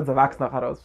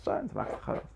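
First: Said in the usual way. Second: Breathy whisper, much softer; whispered echo. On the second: Shown as a demonstration. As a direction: drop to a whisper for the repeat. Repeats phrase then whispers it.

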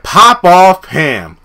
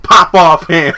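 First: Sassy taunt. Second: Disbelieving echo. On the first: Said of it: "when this fool said". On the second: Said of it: "I was like". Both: Retold or imitated.

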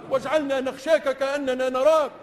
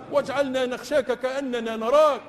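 The two takes are said the same way.

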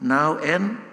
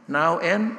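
The two takes are said the same way.

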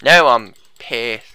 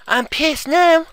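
First: Slow, low, loud annoyance; drawn-out low grumble of anger; mock pissed off. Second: Slow, high-pitched indignation; squeaky drawn-out annoyance; mock pissed off. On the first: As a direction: drag it out low with menace. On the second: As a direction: stretch it out high like a tantrum.

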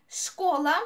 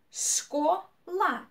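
First: Said in the usual way. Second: "школа" split, шко, pause, ла; syllable by syllable. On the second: Shown as a demonstration. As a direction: sound out "школа" in two separate beats. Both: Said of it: "two syllables".

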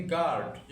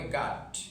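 First: "গার্ড" with a clearly sounded r before d; R pronounced. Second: "গার্ড" as gaad, r dropped; silent R. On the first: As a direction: say "গার্ড" as gard, r audible. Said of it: "আমরা যদি আর উচ্চারণ করি". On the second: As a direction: say "গার্ড" with open a straight into d, no r. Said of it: "আর উচ্চারণটা আমরা বাদ দেই". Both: Shown as a demonstration.

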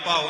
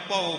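First: ਭਾਉ with a long open aa before the u; misread long vowel. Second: ਭਉ with a short a gliding into u; corrected short vowel. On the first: Teacher showing students the misreading, long aa in ਭਾਉ. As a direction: say ਭਾਉ as bhaa-u, the mistaken reading. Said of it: "ਇਹਨੂੰ ਭਾਉ ਨਹੀਂ ਪੜ੍ਹਨਾ". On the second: Teacher correcting the reading, short vowel in ਭਉ. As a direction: say ਭਉ as bha-u, no long aa. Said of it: "ਇਹਨੂੰ ਭਉ ਬੋਲਣਾ ਹੈ". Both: Shown as a demonstration.

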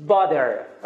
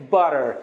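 First: "butter" without the American R-like tap; "butter" said as "bah-der", not "burrer"; unflapped butter. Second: "butter" with a quick tongue tap in the middle; American tapped T. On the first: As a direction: say "butter" with a harder, d-like middle consonant. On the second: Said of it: "در تلفظ امریکایی". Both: Shown as a demonstration.

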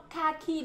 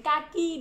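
First: "Kaki" with puffed, aspirated k's; English-style breathy burst on each k of "Kaki". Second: "kaki" with hard k's, no puff of air; unaspirated k. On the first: Teacher contrasts two sounds for pupils, "Kaki" with aspirated k. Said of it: "bật hơi mạnh hơn cho cô". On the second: Teacher contrasts two sounds for pupils, "kaki" with unaspirated k. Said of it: "Kaki nó khác với kaki". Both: Shown as a demonstration.

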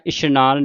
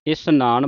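First: ਇਸ਼ਨਾਨ with a sh sound, 'ishnaan'; wrong pronunciation. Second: ਇਸ਼ਨਾਨ with a plain s, 'isnaan'; correct pronunciation. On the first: Teacher warns the congregation, ਇਸ਼ਨਾਨ said with sh. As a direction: turn the s of ਇਸ਼ਨਾਨ into sh. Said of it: "ਇਸ਼ਨਾਨ ਨਹੀਂ ਕਹਿਣਾ". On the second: Teacher shows the congregation how to recite, ਇਸ਼ਨਾਨ with plain s. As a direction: say ਇਸ਼ਨਾਨ with s, not sh. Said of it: "ਇਸ਼ਨਾਨ ਬੋਲਣਾ". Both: Shown as a demonstration.

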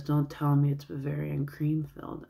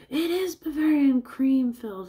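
First: Said in the usual way. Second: High, loud cartoonish delight; excited imitation. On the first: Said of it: "Whitey goes". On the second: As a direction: exclaim it in a high put-on voice, overjoyed.

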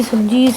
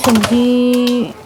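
First: Said in the usual way. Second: "ਸਬਜ਼ੀ" stretched very slowly, with a falling tone; drawn out. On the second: Acted. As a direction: linger on "ਸਬਜ਼ੀ" as if thinking. Drawn-out word while searching fridge.

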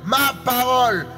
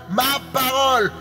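No difference in how they are said.

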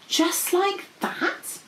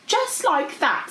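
First: High, slow, hushed wonder; awed. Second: High, slow, emphatic confirmation; dragon confirming. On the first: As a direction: ask it in wide-eyed amazement. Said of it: "Princess P said in awe". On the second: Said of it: "said Goldie". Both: A narrator's reading.

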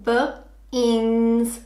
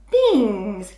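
First: B-ins split into slow separate sounds; segmenting b-ins for a child; sound talk. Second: Said in the usual way. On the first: Shown as a demonstration. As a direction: sound out b-ins slowly, one sound at a time. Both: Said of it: "So we would say".

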